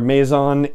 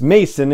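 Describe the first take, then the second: First: The middle consonant sounds like a Z. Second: The middle consonant sounds like an S. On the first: The speaker calls it wrong. "in my head the S is more like a Z" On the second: The speaker calls it right. "it's pronounced like Mason jar"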